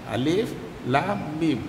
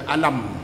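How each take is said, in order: First: Each letter name is said separately, one by one. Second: The letters are joined and read as one word. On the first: The speaker calls it right. "dibaca secara terputus-putus" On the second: The speaker calls it wrong. "dia tak boleh baca alam"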